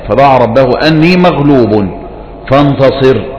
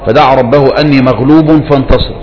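First: There is a stop after the word maghlub. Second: The verse is read straight through without stopping. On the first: "الوقوف على أني مغلوب هذا هو الأكمل" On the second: "طيب نحن نقرأ"

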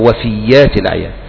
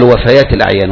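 First: The word is pronounced wafiyyat, with a doubled y. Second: The word is pronounced wafayat, with open vowels. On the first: It refers to loyalty. The speaker calls it wrong. "ولا يقال وفيات الأعيان" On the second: It refers to deaths. The speaker calls it right. "قال وفيات الأعيان"

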